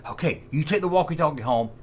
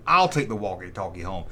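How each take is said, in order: First: Said in the usual way. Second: Second kid's reply, voiced lower; other kid answering. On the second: Kids sharing walkie-talkies.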